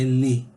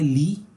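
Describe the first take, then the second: First: The vowel is short and lax. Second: The vowel is long and tense. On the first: The speaker calls it right. "é le. Bem curto" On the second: The speaker calls it wrong. "não é li"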